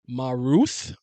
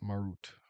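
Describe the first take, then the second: First: The name ends with a th sound. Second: The name ends with a plain t sound. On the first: The speaker calls it wrong. "There's no th" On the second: The speaker calls it right. "not th"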